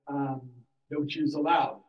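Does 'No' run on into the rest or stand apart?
runs on. 'No' runs straight on into 'Jews allowed'.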